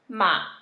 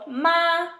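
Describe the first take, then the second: First: It is said with the third tone. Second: It is said with the first tone. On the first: It means horse. "third tone, means horse" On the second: It means mother. "first tone, means mother"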